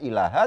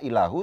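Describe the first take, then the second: First: The word ends with an a vowel. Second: The word ends with a u vowel. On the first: The speaker calls it right. "dibaca ilaha" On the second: The speaker calls it wrong. "tidak ilahu"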